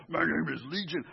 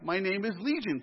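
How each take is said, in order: First: Brief put-on demonic growl; growly voice. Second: Said in the usual way. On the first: Shown as a demonstration. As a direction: growly voice of an unclean spirit. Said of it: "I picture a growly voice". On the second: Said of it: "I'm not sure if it was like a growly voice".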